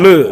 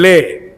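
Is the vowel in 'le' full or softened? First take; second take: softened; full. First: The e vowel is softened and weak. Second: The e vowel is full and clear. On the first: The speaker calls it right. "e-nya agak sedikit dilembutkan" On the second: The speaker calls it wrong.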